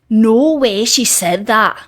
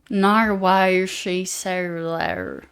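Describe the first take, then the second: First: It is spoken in a Scottish accent. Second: It is spoken in a Southern American accent. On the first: "That's how I would say it in a Scottish accent" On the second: "I just turned into someone from the south of America"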